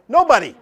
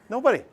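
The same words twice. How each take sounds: First: A higher, louder, flat "Nobody." said firmly; emphatic answer. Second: Said in the usual way. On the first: Real, not acted. Teacher firmly answers his own question to the class. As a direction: snap back "Nobody." as the obvious answer.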